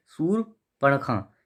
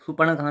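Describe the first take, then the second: First: "शूर्पणखा" very slowly with a clear r; correct form शूर्पणखा. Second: "शूर्पणखा" without the r, as soopankha; wrong form शूपणखा. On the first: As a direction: split शूर्पणखा after soor, r sounded. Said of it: "ये सही है". ("शूर्पणखा" धीरे, र साफ़) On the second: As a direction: drop the r from शूर्पणखा. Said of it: "शूर्पणखा नहीं". ("शूर्पणखा" बिना र के, गलत रूप) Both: Shown as a demonstration.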